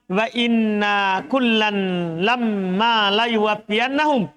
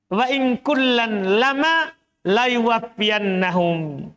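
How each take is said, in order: First: The n and m sounds are held doubled. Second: The n and m sounds are short, single. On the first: "Tapi bukan itu" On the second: "Dia ringankan"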